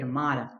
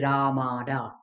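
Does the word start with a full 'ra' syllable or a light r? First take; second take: light r; full ra. First: It begins with a light, quick r sound. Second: It begins with a full, separate 'ra' syllable. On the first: The speaker calls it right. "We say Ramada" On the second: The speaker calls it wrong. "We do not say Ramada"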